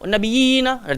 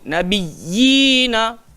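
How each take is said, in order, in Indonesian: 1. 'y' di tengah pendek, tanpa ditekan. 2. 'y' di tengah ditekan, digandakan dan ditahan. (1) "kita tak bolehlah baca wan nabiyina, nabiyina. Tak boleh macam tu" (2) "dia kena ada tekan"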